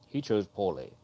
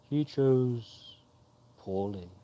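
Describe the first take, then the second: First: It is a plain British voice, no special timing. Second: It imitates the old knight's timing and tune.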